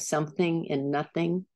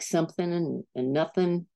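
First: The final sounds of the words are fully pronounced. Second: The final sounds of the words are dropped. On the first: The speaker calls it right. "instead of" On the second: The speaker calls it wrong. "I didn't finish my words. I'd say things like"

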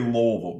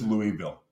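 First: It is pronounced the local Kentucky way. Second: It is pronounced the outsider way. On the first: This is how residents say it. The speaker calls it wrong. "The local in that city in Kentucky say Louisville" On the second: This is how the speaker thinks it should be said. The speaker calls it right. "but it's Louisville"

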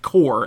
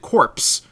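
First: The word ends without any 'ps' sound. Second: The word ends with an audible 'ps' sound. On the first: "that is pronounced core, as an army corps" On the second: "they pronounce it corpse, like as in the corpse"

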